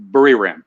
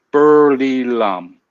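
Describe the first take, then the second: First: "Buriram" with an American R, unrolled; anglicized Buriram. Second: "Burly lam" drawn out very slowly, with L sounds. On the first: Real, not acted. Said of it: "I'm not saying it right". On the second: Shown as a demonstration. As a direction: carefully try "Burly lam" as just taught, syllable by syllable. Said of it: "just keep it like that first".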